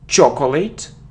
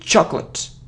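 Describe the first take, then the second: First: The word is said with three full syllables. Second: The word is said with two syllables. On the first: The speaker calls it wrong. "it isn't chocolate" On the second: The speaker calls it right. "it's chocolate, So it's like cl"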